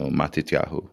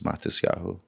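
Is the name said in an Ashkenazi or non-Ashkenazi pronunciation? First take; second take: non-Ashkenazi; Ashkenazi. First: It is said in a non-Ashkenazi pronunciation. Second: It is said in an Ashkenazi pronunciation.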